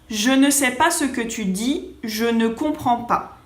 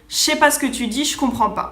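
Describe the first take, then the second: First: It is said slowly with every syllable pronounced. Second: It is said fast with the ne dropped. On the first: This is the textbook form. "un libro te va a enseñar a decir" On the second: This is how it sounds in real life. "si digo la misma frase rápido"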